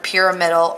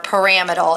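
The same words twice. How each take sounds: First: "pyramidal" said as PEER-uh-MID-al; pronunciation variant. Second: "pyramidal" said as puh-RAM-id-al; alternative pronunciation. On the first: Teacher explaining the word's origin, "pyramidal" as PEER-uh-MID-al. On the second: Teacher quoting some people's version, "pyramidal" as puh-RAM-id-al. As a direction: put the stress on RAM in "pyramidal". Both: Shown as a demonstration. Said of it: "as some people pronounce".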